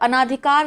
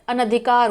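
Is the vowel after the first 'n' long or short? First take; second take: long; short. First: The vowel after the first 'n' is long. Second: The vowel after the first 'n' is short. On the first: The speaker calls it wrong. "अनाधिकार नहीं होता है" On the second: The speaker calls it right. "ना बड़ा नहीं होता, छोटा होता है"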